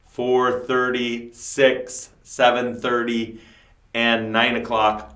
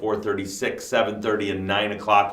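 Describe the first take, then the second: First: The times are read slowly and deliberately. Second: The times are read at normal speed.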